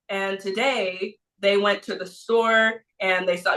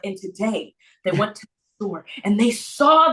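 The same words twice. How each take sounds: First: It is read in a flat, monotone voice. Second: It is read with lively, varied expression. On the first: The story feels dull to the listener. The speaker calls it wrong. "you're not just going to want to read it like" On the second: The story draws the listener into its emotion. The speaker calls it right. "You want to be like"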